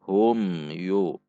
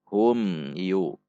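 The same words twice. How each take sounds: First: The m sound is short and clear. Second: The same.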